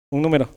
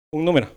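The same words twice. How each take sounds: The two takes are said the same way.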